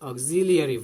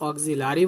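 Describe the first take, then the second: First: It is said with a 'lee' sound. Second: It is said without a 'lee' sound. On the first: The speaker calls it right. "We should pronounce অক্সিলিয়ারি verb" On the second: The speaker calls it wrong. "অক্সিলারি বলবো না"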